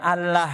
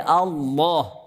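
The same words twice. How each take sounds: First: The L sound is light and thin. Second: The L sound is heavy and thick. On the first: The speaker calls it wrong. "bukan Allah enggak" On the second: The speaker calls it right. "Tapi Allah, tebal"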